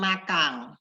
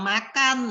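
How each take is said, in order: First: The word ends in an ng sound. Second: The word ends in an n sound. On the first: The speaker calls it wrong. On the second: The speaker calls it right.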